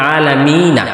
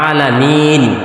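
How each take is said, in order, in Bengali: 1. স্বরধ্বনিটি সংক্ষেপে উচ্চারিত হয়, শেষ হয় -na দিয়ে। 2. স্বরধ্বনিটি লম্বা করে টানা হয়, শেষ হয় -n দিয়ে। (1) "যখন আমি আলামিনা বলবো তখন টান হবে এক আলিফ" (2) "এই এক আলিফটা তখন তিন আলিফ হয়ে যাবে"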